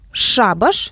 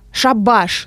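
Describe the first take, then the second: First: The stress is on the first syllable. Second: The stress is on the second syllable. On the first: A gathering of witches or evil spirits. "с ударением на первый слог" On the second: The end of work; it's finished. "с ударением на второй слог"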